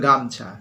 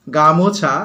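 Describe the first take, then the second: First: "গামছা" in two syllables, no o; vowel dropped. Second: "গামোছা" with the o vowel clearly sounded; full older form. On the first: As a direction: drop the middle vowel: "গামছা". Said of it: "ওকারটা লুপ্ত হয়ে গেল". (ও-কার বাদ দিয়ে "গামছা") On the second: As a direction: give "গামোছা" all three syllables. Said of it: "হয়ে গেল গামছা". ("গামোছা" ও-কার স্পষ্ট করে বলা) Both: Shown as a demonstration.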